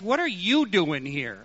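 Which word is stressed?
you. The stress falls on the word you. This person of all people should not be here. "he might have stressed, ... You of all people"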